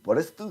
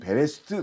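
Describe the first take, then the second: First: The first vowel sounds like 'uh'. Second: The first vowel sounds like 'e'. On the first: This is how native speakers say it. "유대인들이 발음할 때 이것을 버레스트 그렇게 발음하더라고요" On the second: This is the form taught in school. "우리 배울 때는 베레스트 그렇게 배웠는데"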